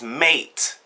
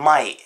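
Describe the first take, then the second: First: "mate" with a clear ay vowel, rhyming with late; corrected vowel. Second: "mate" said like "mite"; Cockney vowel. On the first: Londoner correcting the Cockney pronunciation, "mate" said with an ay vowel. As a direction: say "mate" with ay, no eye sound. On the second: Londoner mocking Cockney speech, "mate" pronounced "mite". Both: Shown as a demonstration. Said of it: "there's no I in mate".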